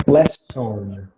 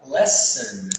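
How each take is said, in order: First: "Lesson" with a full "son" ending; wrong "on" ending. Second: Slow "lesson", ending in a weak "sn"; correct reduced ending. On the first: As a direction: give the second syllable of "Lesson" a round O. ("Lesson" com "on" cheio no final) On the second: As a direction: say "lesson" as "LESS-un". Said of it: "Vai falar lesson". ("lesson" com a última vogal reduzida) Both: Shown as a demonstration.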